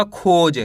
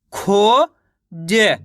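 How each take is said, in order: First: Said in the usual way. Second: खोज split as खो, pause, ज; खोज very slowly sounded out; syllable by syllable. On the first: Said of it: "मिलके बन जाएगा". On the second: Shown as a demonstration. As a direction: stretch खो upward, then ज on its own. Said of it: "एक अक्षर का उच्चारण करके".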